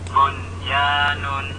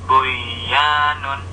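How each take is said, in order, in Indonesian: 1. Bunyi n diucapkan dengan jelas. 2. Bunyi n menyatu dengan bunyi berikutnya.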